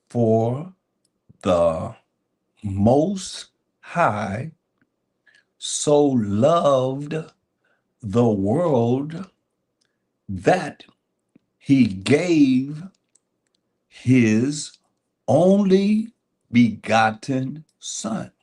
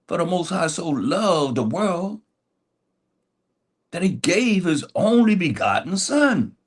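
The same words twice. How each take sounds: First: It is said slowly. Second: It is said at normal speed.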